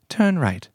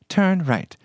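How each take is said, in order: First: It is said in an imitated British accent. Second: The same.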